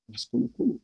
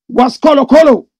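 First: Said in the usual way. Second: Loud, high shout of the name; loud call. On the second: Real, not acted. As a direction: belt the name out.

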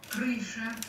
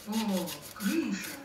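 First: Thin squeaky announcer voice; squeaky rubber duck. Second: Slow, drawn-out marvelling «крыша»; delighted. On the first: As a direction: squeak it like a tiny lift boy. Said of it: "объявил скрипучий голосок". (скрипучий голосок) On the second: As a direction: savour the word slowly in wonder. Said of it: "повторил он восхищённо". (восхищённо) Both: A narrator's reading.

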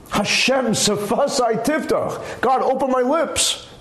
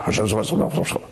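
First: Slow, earnest and deliberate prayer; heartfelt prayer. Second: Fast, mumbled by rote; rattled off. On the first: Opening prayer said slowly and with feeling. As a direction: pray it like you mean it. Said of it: "I'm not". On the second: Praying by rote, rattling the words off fast. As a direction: rush it like paying a bill. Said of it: "You're not paying a bill". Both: Shown as a demonstration.

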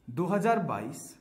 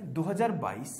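First: "दो हज़ार बाईस" said slowly, each word spaced out; slow emphatic repeat. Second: Said in the usual way. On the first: Shown as a demonstration. Teacher stressing the year to students, slow and deliberate. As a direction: drag out दो हज़ार बाईस to drive it home. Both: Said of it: "तो आपको क्या देखना है".

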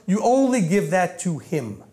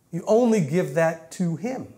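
First: Said in the usual way. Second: "You only give that to him" said slowly, word by word; slow, measured repeat of "only give that to him"; deliberate emphasis. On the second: Shown as a demonstration.

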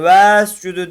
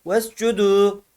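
First: "vescudu" with the first e stretched long; long, drawn-out first syllable in "vescudu"; wrongly lengthened vowel. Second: "Vescudu" with a short first e, straight into the s; short "ves", then a long final u in "Vescudu"; joined without lengthening. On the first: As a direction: drag out the ve before the s in "vescudu". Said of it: "değil". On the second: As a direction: clip ve onto the s in "Vescudu". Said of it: "sine tutturacağız direkt". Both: Shown as a demonstration.

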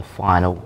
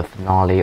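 First: "final" said as FIGH-nul; "final", two syllables, stress on FIGH; corrected final. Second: "finale" said as fin-AH-lee; "finale", ending stressed on AH; mispronounced finale. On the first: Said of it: "not the finale, but the final". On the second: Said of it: "not the finale". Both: Real, not acted.

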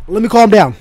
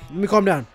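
First: Heated outburst. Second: Forcing a calmer voice; calming himself. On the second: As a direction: talk yourself back down. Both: Real, not acted.

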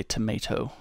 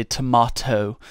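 First: "tomato" with an AY in the middle; tomato as to-MAY-to. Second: "tomato" with an AH in the middle; tomato as to-MAH-to. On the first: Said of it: "I probably say tomato". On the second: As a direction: say "tomato" as to-MAH-toe, teasingly. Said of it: "when I'm making fun of Daryl". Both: Shown as a demonstration.

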